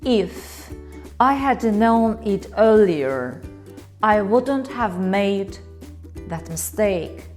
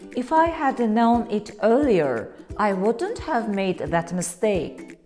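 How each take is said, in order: First: The sentence is spoken slowly and heavily. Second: The sentence is spoken at a moderate pace. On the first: The speaker deeply regrets it. "Sounds serious, right? Like I really regret it" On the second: The speaker is just explaining. "Now it sounds more natural. Like I am not regretting, I'm just explaining"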